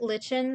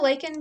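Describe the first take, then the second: First: The first syllable does not sound like 'like'. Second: The first syllable sounds like the word 'like'. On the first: It makes no pun. "if I pronounce it lichen, then it doesn't make sense as a pun" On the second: It makes a pun on 'like'. "I just say lichen because like and subscribe"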